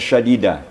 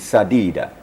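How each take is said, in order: First: The word begins with an sh sound. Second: The word begins with a plain s sound. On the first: The speaker calls it wrong. "bukan syadida" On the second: The speaker calls it right. "tapi sadida. Sin"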